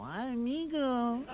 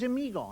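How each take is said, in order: First: Long, drawn-out Mexican "amigo"; Mexican accent. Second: Said in the usual way. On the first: Acted. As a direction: stretch it slowly like a put-on Mexican. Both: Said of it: "Mexicans is always amigo".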